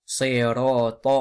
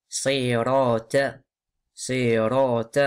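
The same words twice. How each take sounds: First: "صراط" ending in a dark, emphatic "to"; careful "صراط", emphatic last syllable; heavy final T. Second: "صراط" ending in a thin "ta"; faulty demo of "صراط" with light t; light final T. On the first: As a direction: make the ط of "صراط" full and heavy. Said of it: "alors que c'est". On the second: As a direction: soften the ط of "صراط" into a plain t. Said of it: "les gens, ils disent". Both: Shown as a demonstration.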